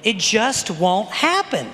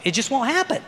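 First: Slow, deliberate, word by word; emphatic repetition. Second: Said in the usual way. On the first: Acted. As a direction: drive it home slowly and firmly. Slow repeat to drive point home.

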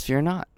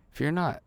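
First: Said in the usual way. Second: "Fear not." repeated much softer after a pause. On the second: Shown as a demonstration. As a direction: drop the volume and say "Fear not." gently.

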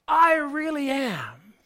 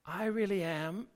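First: Loud, high, slow emphatic declaration. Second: Said in the usual way. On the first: Retold or imitated. Preacher voicing Jesus's emphatic claim, loud and high. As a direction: hammer home I really am, loud and slow. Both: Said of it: "is emphatic".

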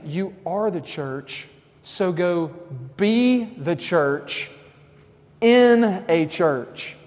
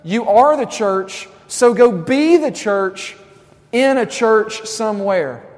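First: Slow, deliberate, each word weighted; slow emphatic. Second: Louder, punchier restatement; louder repeat. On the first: Preacher stating the key line, slow and weighty. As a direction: lay it down slowly and firmly. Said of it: "slow emphatic first statement". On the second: Preacher repeating his point louder to the students. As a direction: hammer the line home louder. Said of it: "Does that make sense?". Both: Shown as a demonstration.

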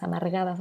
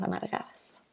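First: Softer echo of amargadas; fading repeat. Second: Amargadas whispered, breath only; whispered echo. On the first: Echoing bitter old lady, trailing off. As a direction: amargadas said again, dropping away. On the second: Recalling bitter pharmacist, whispered echo. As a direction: let amargadas die into a whisper. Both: Retold or imitated.

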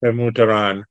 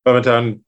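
First: "Pemutaran" repeated in full, Pe-mu-ta-ran; careful four-syllable "Pemutaran", copying the guest; corrected pronunciation. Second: "Pemutaran" shortened to "Pemutan", dropping the "ra"; tentative "Pemutaran" with a swallowed middle, ending in "tan"; unsure pronunciation. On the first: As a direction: say "Pemutaran" with the "ra" restored, as "Peh-moo-tuh-rahn". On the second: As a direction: say "Pemutaran" without its "ra", as "Pe-muh-tan". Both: Real, not acted. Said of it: "How do you pronounce it?".

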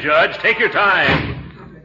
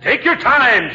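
First: Drawn-out, slow "take your time". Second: Said in the usual way. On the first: Acted. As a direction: stretch every word out slowly.

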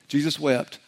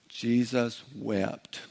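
First: Said in the usual way. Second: Very slow, softer delivery; drawn-out recital. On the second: Shown as a demonstration. Preacher helping the congregation memorize a short verse, slow recital. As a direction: say it word by word, slowly and quietly.

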